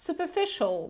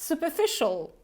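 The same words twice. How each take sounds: Both takes have the same delivery.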